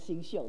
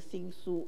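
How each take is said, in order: First: The second syllable is pronounced xiu. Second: The second syllable is pronounced su. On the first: The speaker calls it right. "应该是新秀" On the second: The speaker calls it wrong. "我那个时候是读新书啊"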